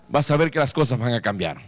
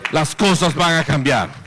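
First: Said in the usual way. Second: Firm preached emphasis on "cosas"; emphatic repeat. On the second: Real, not acted. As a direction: hammer the promise home.

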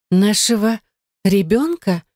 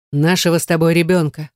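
First: Higher, halting disbelieving echo; incredulous question. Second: Said in the usual way. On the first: A narrator's reading. Gayne echoes his news about the child, incredulous. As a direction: repeat it in disbelief, word by word. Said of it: "недоверчиво спросила Гайне".

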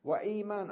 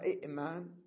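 First: وإيمان with a long smooth ee; long initial ee. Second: إئمان with short i, glottal catch, then maan; original two hamzas. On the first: Teacher giving the changed form, long ee. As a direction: hold the ee in وإيمان, no catch. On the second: Teacher giving the original form, with catch. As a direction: break إئمان after the first i. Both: Shown as a demonstration. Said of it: "أصلها إئمان".

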